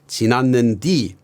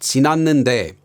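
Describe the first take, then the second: First: The word ends with a 'di' sound. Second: The word ends with a 'de' sound. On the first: This is the Jeolla dialect form. "you might hear him pronounce it as" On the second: This is the standard form. "the standard te ending"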